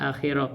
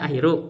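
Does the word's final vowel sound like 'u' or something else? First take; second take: other; u. First: The word ends without a final 'u' vowel. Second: The word ends with a final 'u' vowel. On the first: The speaker calls it wrong. "beliau tidak dibaca dengan rofa" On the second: The speaker calls it right. "harusnya kalau dibaca akhiru"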